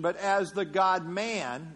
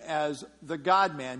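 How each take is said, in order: First: God-man with the weight on man, slowed; stress on MAN. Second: Said in the usual way. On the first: Shown as a demonstration. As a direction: lean on man in God-man, slowly. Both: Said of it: "emphasis on man now".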